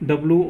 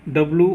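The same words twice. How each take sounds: The two takes are said the same way.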